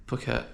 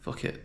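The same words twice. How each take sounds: First: "Phuket" said softly with a P; P pronunciation. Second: "Phuket" said softly with an F; F pronunciation. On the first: Traveller testing the name to himself, "Phuket" with a P. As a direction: softly try "Phuket" as "poo-kit". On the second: Traveller testing the name to himself, "Phuket" with an F. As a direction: softly try "Phuket" as "fuh-kit". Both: Shown as a demonstration. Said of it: "Is it Phuket or Phuket".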